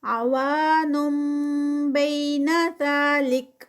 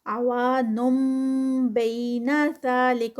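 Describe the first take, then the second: First: عوان بین ذالک with نون turning to meem before با; slow chanted iqlab; tajweed recitation. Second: عوانم بین ذالک with clear meem sound; slow recitation, nasal meem; iqlab recitation. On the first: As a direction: recite with meem sound, ghunna two counts. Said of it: "یہاں پر نون ساکنہ". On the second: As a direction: say the meem, held two counts. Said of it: "میم کی sound آئے گی". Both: Shown as a demonstration.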